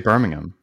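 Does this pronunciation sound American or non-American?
non-American. It is said in a non-American way. The speaker calls it right. "I think you just say Birmingham"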